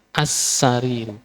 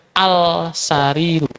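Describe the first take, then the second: First: As-sariru with the l merged into a doubled s; assimilated lam. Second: Al-sariru with the l sounded before s, the mistaken way; wrong reading. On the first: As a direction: hold the s in As-sariru, no l. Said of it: "dikasih tasdid". (As-sariru, lam dilebur ke sin) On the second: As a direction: say al-sariru keeping the l. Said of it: "Kalau ini nggak dikasih, nanti bacanya". (bacaan salah al-sariru, lam dibaca jelas) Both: Shown as a demonstration.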